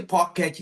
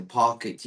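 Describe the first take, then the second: First: "pocket" with a full "et" ending, as the students said it; "pocket" said the wrong way, its last syllable clear; wrong pronunciation. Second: "pocket" with a reduced, weak "et" ending; "pocket" said the right way, its last vowel reduced; right pronunciation. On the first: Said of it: "you don't say pocket". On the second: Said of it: "you say pocket". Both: Shown as a demonstration.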